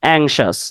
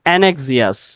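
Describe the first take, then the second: First: The word is said as ank-shus. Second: The word is said as an-ek-si-us. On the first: The speaker calls it right. "উচ্চারণটা হবে অ্যাংশাস" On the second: The speaker calls it wrong. "এটা অ্যানেক্সিয়াস হবে না"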